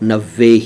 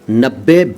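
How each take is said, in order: First: The middle consonant sounds like a v. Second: The middle consonant sounds like a doubled b. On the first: The speaker calls it right. "सही उच्चारण नब्बे ही है" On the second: The speaker calls it wrong. "बिल्कुल गलत है"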